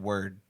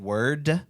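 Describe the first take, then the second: First: The final sound is cut off in the throat. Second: The final D is clearly released. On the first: "I kind of like stopped the the like sound in my throat" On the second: "enunciating word with the D"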